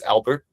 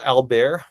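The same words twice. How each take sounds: First: Albert said English-style, AL-bert with sounded t; English pronunciation. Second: Albert said French-style, al-BAIR with silent t; French pronunciation. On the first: Guide giving the group our version, Albert in English pronunciation. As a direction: say Albert like the English first name. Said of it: "we would pronounce it as Albert". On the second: Guide naming the village for tour group, Albert in French pronunciation. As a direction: say Albert the French way, ending like "bear". Gives French name, then English one. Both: Shown as a demonstration.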